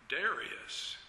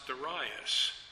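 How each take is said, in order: First: The name is said the modern way. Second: The name is said the older way. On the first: This is how the name is said today. "But the modern pronunciation is Darius" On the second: This is how the name was said in the past. "this name invariably was pronounced Darius"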